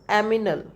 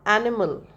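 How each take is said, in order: First: The m comes before the n. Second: The n comes before the m. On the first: The speaker calls it wrong. "and he speaks aminal" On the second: The speaker calls it right. "Say uh, animal"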